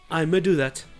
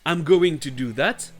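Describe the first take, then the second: First: Going to is reduced to a single vowel. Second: Going to is said in full. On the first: "Très familièrement et encore moins accentué, vous trouverez I'm a" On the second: "I'm going to do that va devenir I'm gonna do that"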